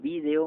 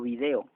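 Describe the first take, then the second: First: It is said the way Spain says it. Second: It is said the way Mexico says it.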